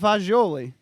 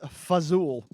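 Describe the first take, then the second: First: It is said as 'fajoli', ending in 'oli'. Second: It is said as 'fazool', ending in 'ool'. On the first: It is the standard Italian form. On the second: It is the Italian-American dialect form. "This is how Goombas pronounce this"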